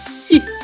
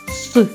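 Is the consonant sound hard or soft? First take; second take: soft; hard. First: The consonant is said soft, palatalized. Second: The consonant is said hard, without softening. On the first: "А другий звук – це м'який звук" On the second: "Перший братик вимовляв все твердо"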